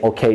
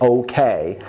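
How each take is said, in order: First: The final vowel is a single pure vowel. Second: The final vowel glides as a diphthong. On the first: The speaker calls it wrong. "You don't say okay" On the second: The speaker calls it right. "you say okay"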